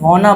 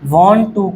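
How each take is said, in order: First: It is said as one reduced word. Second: It is said as two full words. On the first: "short में वाना बोलते हैं" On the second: "वांट टू को short में"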